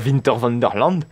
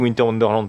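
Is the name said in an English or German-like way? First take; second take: German-like; English. First: The name is said with a German-like pronunciation. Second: The name is said with an English pronunciation. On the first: The speaker calls it wrong. "à force de fréquenter les parcs allemands et néerlandais" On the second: The speaker calls it right. "j'ai bien dit Winter Wonderland"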